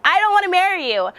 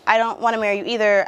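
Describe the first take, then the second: First: High, loud retold yell. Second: Said in the usual way. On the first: Yelling at the guy sent to escort her, high loud yell. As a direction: shout him off, pitched way up. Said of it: "just yelled at him". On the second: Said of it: "And he was just like".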